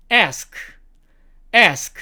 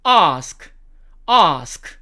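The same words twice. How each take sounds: First: American "ask", front a as in "cat"; slow American demo of "ask"; American accent. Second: British "ask" with long "ah"; slow British demo of "ask"; British accent. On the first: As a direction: say "ask" slowly, American "esk". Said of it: "미국식". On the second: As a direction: say "ahsk" slowly, the British way. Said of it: "영국식". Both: Shown as a demonstration.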